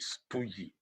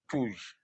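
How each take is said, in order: First: The word ends in an added vowel sound. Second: The word ends in a consonant sound. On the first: The speaker calls it wrong. "He pronounced it stoogy" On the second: The speaker calls it right. "there's a word there, stooge"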